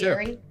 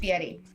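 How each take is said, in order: First: The r is a plain English r sound. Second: The r is tapped, almost like a quick t. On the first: The speaker calls it wrong. "I used to say" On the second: The speaker calls it right. "almost like a T, like you're kind of like rolling your R's almost"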